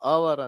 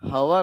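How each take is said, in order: First: The word begins with a vowel sound. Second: The word begins with an h sound. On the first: The speaker calls it right. "ಅದು ಅವರ್ ಅಂತ ಕರಿತಾ ಇದ್ದೇವೆ" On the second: The speaker calls it wrong. "ಹವರ್ ಅಲ್ಲ"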